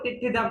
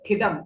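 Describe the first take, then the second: First: It starts with a full, long 'ti' syllable. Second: It starts with only a half 't' sound. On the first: The speaker calls it wrong. "टी पूरा हो गया आपका" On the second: The speaker calls it right. "ट आधा है ना"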